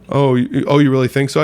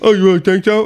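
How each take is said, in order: First: It is said in a plain, ordinary voice. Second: It is said as a mocking, exaggerated impersonation.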